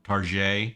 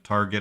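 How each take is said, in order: First: The word is said in a fancy, posh way. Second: The word is said in a plain, ordinary way.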